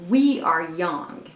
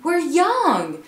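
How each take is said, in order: First: The stress falls on the word we. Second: The stress falls on the word young. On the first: Unlike you, we are the young ones. "teaser un peu quelqu'un et dire vous, vous êtes vieux, mais we are young" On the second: It is a plain statement of being young. "Vous dites we're young"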